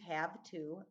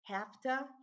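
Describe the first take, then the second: First: Each word is said separately and fully. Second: The words blend together into one reduced word. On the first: The speaker calls it right. "means have to" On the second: The speaker calls it wrong. "the hafta are things like hafta"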